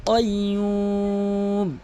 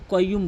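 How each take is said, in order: First: কাইয়ুম chanted long, with back-of-tongue Q; deep Qaf. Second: কাইয়ুম with an ordinary front k; wrong light K. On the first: Teacher modelling Qaf, long drawn কাইয়ুম with deep Q. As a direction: start কাইয়ুম on the palate with the tongue root. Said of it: "জিহ্বার গোড়া উপরে তালু থেকে". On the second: Teacher warning against this, কাইয়ুম with light K. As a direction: say কাইয়ুম quickly with plain "k". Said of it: "কাফের উচ্চারণ করবেন না". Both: Shown as a demonstration.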